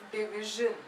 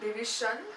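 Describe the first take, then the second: First: The middle consonant is a soft 'zh' sound. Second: The middle consonant is not a soft 'zh' sound. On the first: The speaker calls it right. "it's division" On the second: The speaker calls it wrong. "It's not division"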